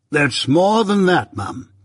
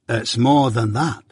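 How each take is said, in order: First: High, slow, self-important echo; pompous echo. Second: Lightly voiced, unhurried Joe; slow, at an everyday pitch; Joe's slow reveal. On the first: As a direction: draw it out grandly as Pumblechook. Pumblechook echoes Joe pompously. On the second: Joe teasingly reveals the sum. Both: A narrator's reading.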